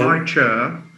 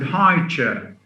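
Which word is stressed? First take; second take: chair; high. First: The main stress falls on the second word. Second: The main stress falls on the first word. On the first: A chair that is tall. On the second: A compound naming a kind of chair.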